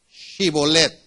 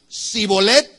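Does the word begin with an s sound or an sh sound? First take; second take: sh; s. First: The word begins with an sh sound. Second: The word begins with a plain s sound. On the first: The speaker is from the tribe that passes the test. The speaker calls it right. "La prueba consistía en pronunciar correctamente una palabra" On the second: The speaker is from the tribe of Ephraim. The speaker calls it wrong. "sin la H intermedia"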